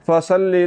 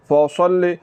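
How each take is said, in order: First: The s sound is thin, with the tongue lowered. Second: The s sound is thick, with the tongue raised. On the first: The speaker calls it wrong. "आवाज़ को बारीक नहीं करना" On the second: The speaker calls it right. "असल लफ्ज़ ये वाला है"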